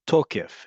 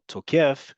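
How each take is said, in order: First: The stress is on the first syllable. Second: The stress is on the last syllable. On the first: It means validity. "this one is on the second to last syllable, the penultimate syllable" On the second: It means an attacker. "If you say it the other way, where the default in modern Hebrew is on the last syllable"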